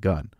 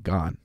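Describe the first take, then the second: First: The vowel is a short 'uh' sound. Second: The vowel is an open 'o' sound. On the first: This is how the commenters say it is pronounced. "It's G U N at the end" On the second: This follows the spelling of the word. "It's spelled G O N"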